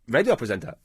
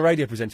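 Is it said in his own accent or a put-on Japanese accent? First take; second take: Japanese accent; own accent. First: It is said in a put-on Japanese accent. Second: It is said in the speaker's own accent.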